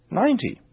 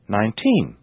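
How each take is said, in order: First: "ninety" stressed on a high NINE; natural first-syllable stress. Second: Put-on "nineteen" stressed on TEEN; natural final stress. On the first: Teacher now saying them naturally, "ninety" stressed on NINE. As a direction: put the weight on NINE in "ninety". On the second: Teacher now saying them naturally, "nineteen" stressed on TEEN. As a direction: put the weight on the last syllable of "nineteen". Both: Shown as a demonstration. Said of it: "Now I'll say them naturally".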